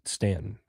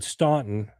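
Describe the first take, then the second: First: The name is said the local Southern way. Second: The name is said just as it is spelled. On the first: The speaker is a local. "So the South, they pronounce it Stanton" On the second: The speaker is from the North. "which is what it looks like"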